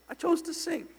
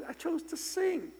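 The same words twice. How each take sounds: The two takes are said the same way.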